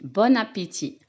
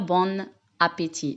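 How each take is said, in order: First: The n sound links into the next word. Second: The two words are said separately, unlinked. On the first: The speaker calls it right. "On fait bien sûr la liaison" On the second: The speaker calls it wrong. "on ne dit pas"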